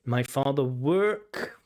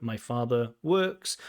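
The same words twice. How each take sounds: First: Slow mock echo of "My father work"; repeating the error. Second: Slow, leaning on "works" with its s; stress on works. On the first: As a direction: echo the mistake back slowly. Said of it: "this is just present simple". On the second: Shown as a demonstration. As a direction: land on the final s of "works". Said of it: "I work, you work".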